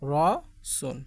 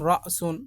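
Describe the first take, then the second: First: A long vowel flows on with no glottal stop. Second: A glottal stop follows the first vowel. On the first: "আর এখন আমরা বলি" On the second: "মূলত এটা মূলত ছিল আগে রসুন"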